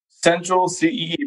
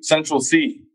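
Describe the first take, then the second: First: "C E E" stretched long and slow; drawn-out final word. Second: Said in the usual way. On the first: Real, not acted. Recommending a new rapper to friends, final "C E E" drawn out. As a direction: draw out the end, "C E E".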